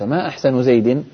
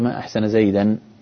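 First: The last word ends with the vowel i. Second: The last word ends with the vowel a. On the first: Asks what his best feature is. "وإن أضفت أحسن إلى زيد" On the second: Expresses wonder at how handsome he is. "فأنت تتعجب من حسنه"

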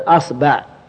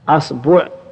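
First: The b is followed by the vowel a. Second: The b is followed by the vowel u. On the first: "الفتح" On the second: "والضم"

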